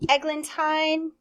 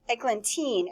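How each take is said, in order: First: The last syllable does not rhyme with 'seen'. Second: The last syllable rhymes with 'seen'.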